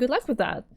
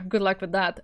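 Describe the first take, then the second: First: It is said in a sincere, excited tone. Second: It is said in a sarcastic tone.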